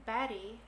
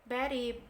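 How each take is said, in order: The two takes are said the same way.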